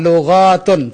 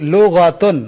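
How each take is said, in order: First: The vowel after the gh sound is long. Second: The vowel after the gh sound is short. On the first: The speaker calls it wrong. "Bukan lugatun" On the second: The speaker calls it right. "Ghainnya jangan dipanjangkan"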